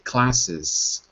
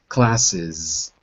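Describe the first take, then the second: First: The ending is pronounced with an S sound. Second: The ending is pronounced with a Z sound. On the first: "it doesn't sound strange to say classes with an S" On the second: "the extra syllable with the Z is classes"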